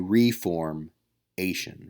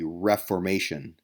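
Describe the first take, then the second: First: The stress is on the third syllable. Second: The stress is on the first syllable. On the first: "because I could say reformation" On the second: "I'm putting the emphasis on a different syllable when I say Reformation"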